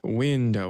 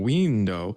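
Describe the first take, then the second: First: The word is said with a plain English accent. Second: The word is said with a heavy Russian accent. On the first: The speaker calls it right. "say window" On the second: The speaker calls it wrong. "instead of saying window"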